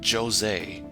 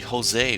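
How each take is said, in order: First: The name begins with a J sound. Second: The name begins with an H sound. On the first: The speaker calls it wrong. "They pronounce the J in his name instead of making it sound like an H" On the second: The speaker calls it right. "it's supposed to be Jose"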